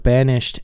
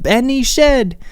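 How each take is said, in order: First: Said in the usual way. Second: "Benny Shed", mock theatrical mispronunciation of banished. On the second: Telling viewers how the movie said banished, "Benny Shed" drawn out. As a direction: say "Benny Shed" as two words, Benny then Shed, slow and high. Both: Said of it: "instead of banished".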